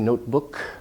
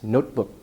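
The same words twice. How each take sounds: First: The T is released with a puff of air. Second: The T is held with no air released. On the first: The speaker calls it wrong. "You don't say notebook" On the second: The speaker calls it right. "it's notebook. Your breath stops there"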